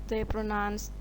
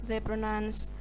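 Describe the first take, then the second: The two takes are said the same way.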